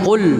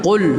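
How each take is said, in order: The two takes are said the same way.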